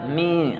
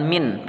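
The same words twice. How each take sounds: First: "Mi" with the n hidden in a held nasal hum; "Mi" lengthened through the nose; ikhfa nasal blur. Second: "min" with a fully closed n; "min" without the nasal blending; wrong clear nun. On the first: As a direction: blur the n after "Mi", never closing it. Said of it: "tapi dia ikhfa". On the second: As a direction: end "min" on a plain, short n. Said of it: "bacanya bukan min". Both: Shown as a demonstration.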